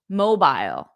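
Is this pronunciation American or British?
British. It is said in a British accent. "But in British English"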